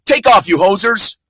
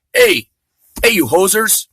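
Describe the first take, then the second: First: Slow, louder Canadian "Take off, you hosers"; mock Canadian accent. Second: Put-on jokey Canadian accent, first "Hey" yelped much higher; hammed-up Canadian "hey, you hosers"; mock Canadian accent. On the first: Comic showing how Canadians talk, mock Canadian accent. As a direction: drag out "Take off" like a movie Canadian. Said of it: "That's how they talk". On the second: Comic imitating Canadians, mock Canadian accent. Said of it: "talk like a Canadian".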